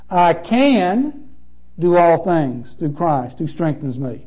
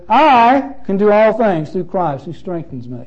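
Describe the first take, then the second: First: The stress falls on the word can. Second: The stress falls on the word I.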